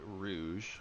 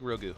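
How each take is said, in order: First: The word ends with a soft 'zh' sound. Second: The word ends with a hard 'goo' sound. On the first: "I should pronounce it Rouge, right? Like Rouge the Bat" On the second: "I like Rogu as a alternate way of saying rogue"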